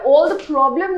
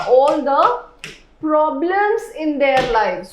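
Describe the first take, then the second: First: Said in the usual way. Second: Slow, drawn-out "problems" with the plural s clear; slow corrected reading. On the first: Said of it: "यहाँ पे all the problem ना होके". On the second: Shown as a demonstration. Teacher correcting "problem" to "problems" for the students, slow and deliberate. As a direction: land on the plural "problems", slowly. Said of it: "all the problem ना होके क्या हो जाएगा".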